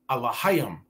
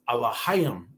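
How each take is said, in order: No difference in how they are said.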